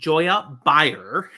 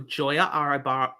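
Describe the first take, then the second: First: The surname begins with a B sound. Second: The surname begins with a vowel sound. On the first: The speaker calls it right. "There we go" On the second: The speaker calls it wrong. "no, blah, say it right"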